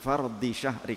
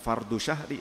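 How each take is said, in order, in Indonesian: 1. Kata pertama berakhir dengan vokal i. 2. Kata pertama berakhir dengan vokal u. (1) "tapi fardi syahri kasrah" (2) "bukan fardu syahri"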